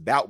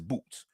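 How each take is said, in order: First: The vowel sounds like the one in 'out'. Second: The vowel sounds like the one in 'boot'. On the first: The speaker calls it wrong. "a lot of people think his last name is pronounced Bout" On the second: The speaker calls it right. "but it's pronounced as Boots"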